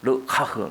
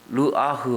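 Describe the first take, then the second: First: The h sound is harsh and husky. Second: The h sound is soft and plain. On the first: "허스키한 소리를 많이 써" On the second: "르아흐 하면 될 거를"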